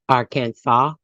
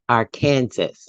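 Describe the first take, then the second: First: The word ends without a sounded final s. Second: The word ends like Kansas, final s sounded. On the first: "One favored Arkansas" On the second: "the other A R Kansas"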